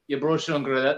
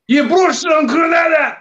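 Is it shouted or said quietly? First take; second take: quietly; shouted. First: It is said quietly and flatly. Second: It is shouted loudly.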